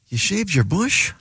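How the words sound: It sounds disappointed.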